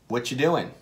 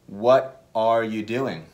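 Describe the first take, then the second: First: The words run together and 'are' drops out. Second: Every word is said, including 'are'.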